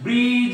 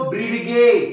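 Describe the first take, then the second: First: It ends in a single j sound, with no d heard. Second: A d and a hard g are heard, ending in a vowel. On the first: The speaker calls it right. "हा ब्रीज आहे" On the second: The speaker calls it wrong. "हा ब्रीडगे नाही"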